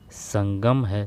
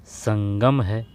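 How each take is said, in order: First: Said in the usual way. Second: Sangam drawn out very slowly, each syllable weighed; slow stressed Sangam. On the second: Shown as a demonstration. Teacher correcting students, stretching Sangam slowly. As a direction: spell out Sangam slowly for the class. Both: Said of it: "जबकि ये नहीं है".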